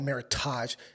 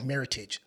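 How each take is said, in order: First: The word ends with a French-style 'tahzh' sound. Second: The word ends like 'heritage', with a plain 'ij'. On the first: The speaker calls it wrong. "it's not called Meritage... that's some French way of saying it" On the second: The speaker calls it right. "It's called Meritage, like heritage"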